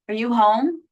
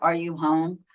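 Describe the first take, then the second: First: The voice rises at the end. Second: The voice falls at the end.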